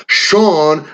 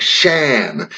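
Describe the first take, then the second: First: SEAN said "Shawn", long open aw; Sean with long vowel. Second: SHAN with a flat a as in "can"; the wrong name, Shan, without the long aw; Shan with short vowel. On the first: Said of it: "The fada is important that way". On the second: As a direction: say Shan to rhyme with "man". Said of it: "makes the vowel completely different". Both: Shown as a demonstration.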